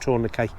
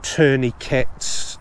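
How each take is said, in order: First: It is said with a British pronunciation. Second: It is said with an American pronunciation. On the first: "Brits follow the French pronunciation" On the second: "in America you pronounce them tourniquets"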